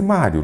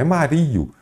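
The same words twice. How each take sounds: First: Said in the usual way. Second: "Mario" pitched high with stress on RI; tônica no i. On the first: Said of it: "não é Mario". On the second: Shown as a demonstration. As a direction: say "Mario" wrongly as ma-RI-o, raised on the i. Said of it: "É mestre Mário". ("Mario" com a tônica no "ri", mais agudo)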